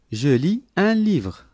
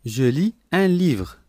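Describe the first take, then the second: No difference in how they are said.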